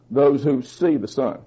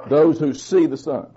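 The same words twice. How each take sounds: First: "see" leaned on, whole line softer; quieter emphatic repeat. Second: Said in the usual way. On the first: Shown as a demonstration. Pastor repeating the point to the congregation, softer with stress on "see". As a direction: let "Those who see the Son" sink in, quietly stressing "see". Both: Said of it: "repeated for emphasis".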